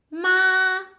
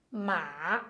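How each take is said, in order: First: "ma" held long on a high, level tone. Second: "ma" held long, sinking low and lifting at the end; dipping tone. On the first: Teacher showing the Chinese word for mother, high level tone. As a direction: draw out "ma" evenly without letting it fall. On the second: Teacher showing the Chinese word for horse, low dipping tone. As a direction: dip "ma" down low, drawn out. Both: Shown as a demonstration. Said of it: "só mudou o jeito de dizer".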